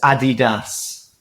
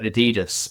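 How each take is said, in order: First: It is said the speaker's own non-American way. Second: It is said the American and Australian way.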